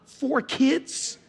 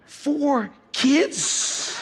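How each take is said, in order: First: Put-on "Four kids?" asked with a rising tune on kids; incredulous question. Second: Put-on "Four kids?" stressed on four, falling at the end; emphatic repeat. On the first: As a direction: ask "Four kids?" as if you can't believe it, voice going up at the end. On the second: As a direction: land hard on four in "Four kids?" and let it drop. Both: Shown as a demonstration.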